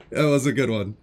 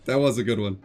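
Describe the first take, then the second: No difference in how they are said.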